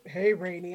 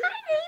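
First: It is said in a deep voice. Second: It is said in a higher voice.

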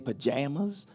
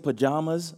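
First: It is said the local Southern way. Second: It is said the New Jersey way.

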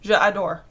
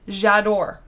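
First: The two words are said separately with both vowels. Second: The two words are blended into one smooth word. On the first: The speaker calls it wrong. "It just doesn't sound as nice as j'adore" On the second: The speaker calls it right. "you put it together to make it slush together nicer"

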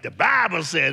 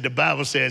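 First: The phrase is said with strong, dramatic emphasis. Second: The phrase is said in an ordinary, plain way.

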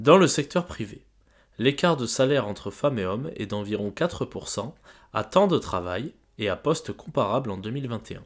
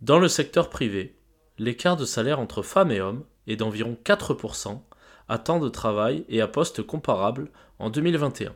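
No difference in how they are said.

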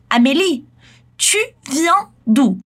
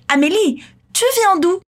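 First: It is said slowly. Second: It is said at normal speed.

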